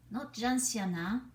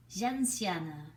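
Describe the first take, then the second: First: Gentiana said with an English a at the end, louder; wrong name. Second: Gentiane said the French way, zhahn-SYAHN; correct French name. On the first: Puppet mocking the wrong way to say Gentiana. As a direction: stress the wrong ending of Gentiana. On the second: Puppet correcting how her name Gentiane is said. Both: Acted.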